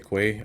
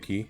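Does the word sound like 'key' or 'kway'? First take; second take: kway; key. First: It is said as 'kway', rhyming with 'way'. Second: It is said as 'key', rhyming with 'see'. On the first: "I say quay" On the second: "I don't say key"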